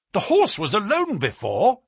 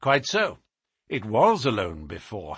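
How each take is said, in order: First: Higher-pitched, surprised exclamation; excited cry. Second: Said in the usual way. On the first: A narrator's reading. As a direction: cry it out as a sudden discovery. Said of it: "I cried".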